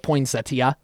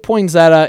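First: The word is said in a fancy, posh way. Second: The word is said in a plain, everyday way. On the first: The speaker is trying to sound refined. "if I'm trying to be a little snooty, I'll go poinsettia" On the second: The speaker is just talking normally. "I say poinsettia if, like, I'm just talking about it"

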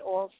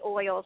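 First: The word has a local, regional-accent pronunciation. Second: The word has a standard, general pronunciation. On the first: This is how the speaker herself says it. "I say oils" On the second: This is how most people say it. "I don't say oils"

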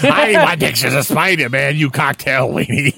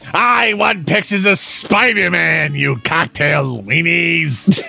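First: It is said without a full Green Goblin voice. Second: It is said in a Green Goblin voice.

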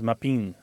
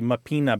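First: The final vowel is dropped. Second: The final vowel is fully pronounced. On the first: This is the Italian American form. "because the A is just kind of not really fully said" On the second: This is the standard Italian form. "what might be mapina"

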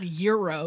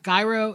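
First: It is said like the sandwich name. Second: It is said unlike the sandwich name. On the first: It names the sandwich. The speaker calls it wrong. "it's not Euro" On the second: It names the movie character. The speaker calls it right. "Gyro, it's not Euro"

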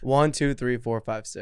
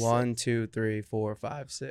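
First: The counting is at a normal, quicker pace. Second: The counting is slower and rhythmic.

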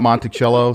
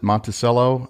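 First: The name is said the way outsiders say it. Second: The name is said the way locals say it. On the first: The speaker is from elsewhere. The speaker calls it wrong. "Not Monticello" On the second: The speaker belongs to the area. The speaker calls it right. "All the locals pronounce it Monticello"

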